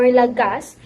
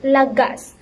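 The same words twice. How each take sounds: First: "lagas" stressed on the first syllable, LA-gas; misplaced stress. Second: "lagas" stressed on the last syllable, la-GAS; final-syllable stress. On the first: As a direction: punch the "la" of "lagas", let "gas" drop. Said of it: "instead of pronouncing it". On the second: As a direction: lean on "gas" at the end of "lagas". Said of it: "the stress here found on the last syllable". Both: Shown as a demonstration.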